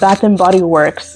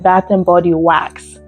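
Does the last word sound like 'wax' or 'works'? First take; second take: works; wax. First: The last word sounds like 'works'. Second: The last word sounds like 'wax'. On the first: The speaker calls it right. "Now it Bath and Body Works" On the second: The speaker calls it wrong. "she pronounced it Bath and Body Wax"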